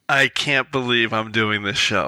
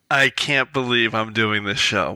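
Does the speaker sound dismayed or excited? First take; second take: dismayed; dismayed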